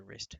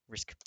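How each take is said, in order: First: "risk" slurred to sound like rist; "risk" misread, the final k lost; misread word. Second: Said in the usual way. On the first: Real, not acted.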